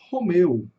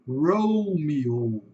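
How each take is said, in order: First: It is said with Portuguese sounds. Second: It is said with English sounds. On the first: "nós falamos Romeu" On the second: "Em inglês eles vão falar Romeo"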